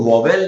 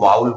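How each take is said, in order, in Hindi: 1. पहला स्वर 'saw' में 'aw' जैसा बोला जाता है। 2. पहला स्वर 'cow' में 'ow' जैसा बोला जाता है। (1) "इसको वॉवेल नहीं बोलेंगे" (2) "इसको वाउल बोलेंगे"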